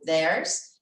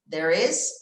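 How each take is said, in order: First: It is contracted into one syllable. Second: It is said as two full words.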